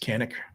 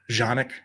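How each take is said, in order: First: The word begins with a hard K sound. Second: The word begins with a soft J sound. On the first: This is the American pronunciation. "this is America, and they put a C on it" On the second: This is the original pronunciation. "I think that's the correct way to say it"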